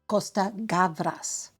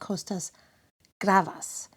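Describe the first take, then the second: First: The surname is said as Gavras. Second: The surname is said as Gravas. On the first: The speaker calls it right. "the eminent screenwriter, director, and producer Costa Gavras" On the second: The speaker calls it wrong. "I mispronounced the name"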